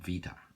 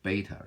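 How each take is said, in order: First: It begins with a V sound. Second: It begins with a B sound. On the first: This is how Greeks say it. "What they're really saying" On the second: This is the English way of saying it. "what you say beta"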